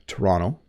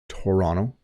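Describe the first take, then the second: First: The second t sounds like a d. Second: The same.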